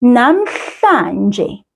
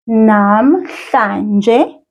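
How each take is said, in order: First: Namhlanje said slowly, each syllable clear; careful teacher pronunciation of Namhlanje; slow Zulu demo. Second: Namhlanje again with a rising end; a second careful take of Namhlanje; repeated Zulu demo. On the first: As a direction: model Namhlanje for a learner to copy. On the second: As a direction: model Namhlanje once more with a gentle rise. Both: Shown as a demonstration. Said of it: "here is how we say it".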